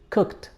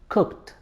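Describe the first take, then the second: First: The -ed ending is pronounced as t. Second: The same.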